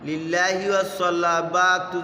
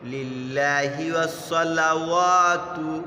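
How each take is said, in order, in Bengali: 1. শেষ শব্দটি b উচ্চারণে শেষ হয়: -batu। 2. শেষ শব্দটি w উচ্চারণে শেষ হয়: -watu। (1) "যদি কেউ বলি তাহলে ভুল হবে" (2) "ওয়াতু আগে"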